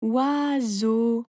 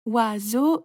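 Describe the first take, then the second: First: "Oiseau" stretched as oi, seau; two long, pondering beats in "Oiseau"; drawn-out syllables. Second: "Oiseau" in two measured beats, rising at the end; two clear syllables in "Oiseau". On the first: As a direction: draw "Oiseau" out while thinking. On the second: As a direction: count out oi, seau more briskly. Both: A narrator's reading. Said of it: "tu coupes le mot en petites parties".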